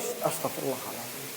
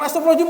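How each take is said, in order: First: It is said in a serious tone. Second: It is said in a joking tone.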